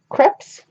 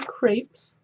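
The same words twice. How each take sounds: First: It is said in a non-American way. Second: It is said the American way.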